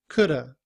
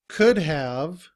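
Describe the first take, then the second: First: The words blend into one short reduced word. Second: Both words are said fully and separately.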